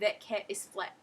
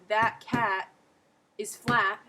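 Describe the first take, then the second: First: The a vowels are eh sounds. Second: The a vowels are open ah sounds. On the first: "I would say" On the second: "if I were to say"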